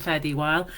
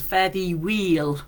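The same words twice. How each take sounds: First: Said in the usual way. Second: "weel" said with a long ee, fare thee weel; Scottish "fare thee weel", slow and deliberate; Scots pronunciation. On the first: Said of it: "rather than". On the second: Shown as a demonstration. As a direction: say "weel" as Scots wheel without the h. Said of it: "it's written as".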